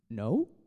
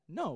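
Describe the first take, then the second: First: It is said hesitantly, with a stammer. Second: It is said firmly, with conviction.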